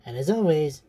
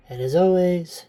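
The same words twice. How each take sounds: First: Said in the usual way. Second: Breathless, winded sign-off; out of breath. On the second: Real, not acted. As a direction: say it short of air. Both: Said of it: "sorry, I'm a little out of breath".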